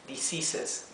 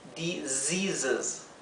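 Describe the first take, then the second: First: The middle consonants are a hissing s. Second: The middle consonants are a buzzing z. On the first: The speaker calls it wrong. "no se pronuncia con la S" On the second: The speaker calls it right. "Quiero que pronuncien como una vibración"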